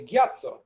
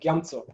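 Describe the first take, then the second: First: No m sound is heard before the ts. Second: An m sound is heard before the ts. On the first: "very pure uh, rasake, then you will very clearly hear" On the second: "they will pronounce that ma"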